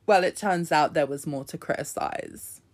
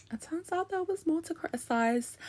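First: Said in the usual way. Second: Much higher, softer, put-on squeak; high squeaky voice. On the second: Shown as a demonstration. Repeats line in a put-on voice.

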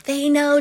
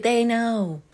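First: Pushed up high and loud on know; emphatic they know. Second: Said in the usual way. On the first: Acted. Recapper stressing the obvious to the characters, louder on know. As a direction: stress know with mock exasperation. Recapping the silent bird scene.

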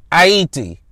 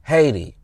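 First: "Haiti" said ah-EE-tee, no h, French style; Creole pronunciation. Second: "Haiti." said HAY-dee with an h, American style; English pronunciation. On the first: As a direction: say "Haiti" the Haitian way, silent h, three syllables. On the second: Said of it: "So that's Haiti". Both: Shown as a demonstration.

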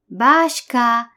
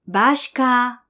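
The two takes are said the same way.

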